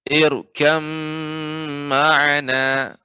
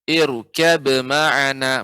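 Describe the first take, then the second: First: The b merges fully into the following m. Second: The b is pronounced separately before the m. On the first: The speaker calls it right. "ba melebur ke mim sehingga tidak lagi tidak nampak lagi huruf ba-nya" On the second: The speaker calls it wrong. "Maka ini kurang tepat ya, keliru ya"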